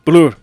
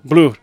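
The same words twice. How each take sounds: First: It is said with a Spanish pronunciation. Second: The same.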